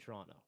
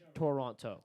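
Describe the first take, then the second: First: The second T is dropped, Canadian style. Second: The second T is pronounced, American style.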